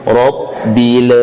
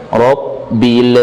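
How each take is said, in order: Both takes have the same delivery.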